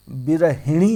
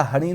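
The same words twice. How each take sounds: First: विरहिणी slow, with hi before ni; correct vowel. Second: हणी with a short a, ha-ni; wrong vowel. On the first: Teacher correcting for students, slow emphatic hi in विरहिणी. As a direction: stress the hi in विरहिणी, drawn out. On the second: Teacher rejecting the misspelling, short a in हणी. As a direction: say हणी with ha in place of hi. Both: Shown as a demonstration. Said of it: "हणी नहीं होता है".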